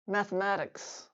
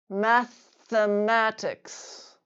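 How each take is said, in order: First: The word is said at normal conversational speed. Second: The word is said slowly and drawn out. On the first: "then at normal speed" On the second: "once slowly"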